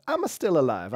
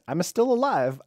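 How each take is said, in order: First: A lighter mock Italian accent, a bit higher; playful Italian accent on the repeat. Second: Mock Italian accent, higher and louder. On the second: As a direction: ham up a Italian accent, singing it out. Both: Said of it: "I said it like an Italian there".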